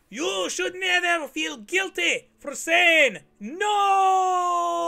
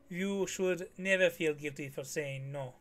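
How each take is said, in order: First: It is said loudly. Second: It is said at normal volume.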